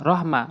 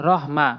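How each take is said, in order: No difference in how they are said.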